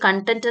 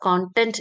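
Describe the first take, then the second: First: The first vowel sounds like the 'u' in 'cup'. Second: The first vowel sounds like the 'o' in 'cot'. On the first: The speaker calls it wrong. "കണ്ടന്റ് എന്ന് പറഞ്ഞ് ശീലിക്കാതെ" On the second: The speaker calls it right. "കോണ്ടന്റ് എന്ന് തന്നെ പറഞ്ഞ് ശീലിക്കുക"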